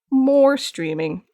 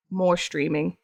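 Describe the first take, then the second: First: More drawn out slowly; emphasis on More. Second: Said in the usual way. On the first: Real, not acted. Streamer wanting more streaming, More stretched emphatically. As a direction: stretch "More" long and lean on it.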